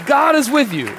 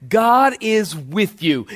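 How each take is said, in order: First: God is with you, pitched high with the weight on is; ringing high reassurance on is; high ringing repeat. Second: God is with you, each word weighted and slow; solemn slow emphasis on God; slow emphatic declaration. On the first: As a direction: lift it high and lean on is. Line repeated after long pause. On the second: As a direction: lay it down slowly, word by word. Key line said slowly. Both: Real, not acted.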